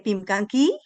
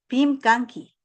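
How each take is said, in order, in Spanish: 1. El tono cambia, como en una pregunta. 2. El tono se mantiene plano, como en una afirmación. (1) "No dije Pimkanki" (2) "Digo Pimkanki"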